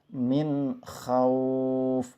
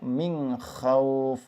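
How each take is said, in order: First: The n sound is pronounced clearly before kh. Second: The n sound is blurred into a nasal hum. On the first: The speaker calls it right. "cara bacanya adalah jelas" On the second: The speaker calls it wrong. "Tidak dibaca"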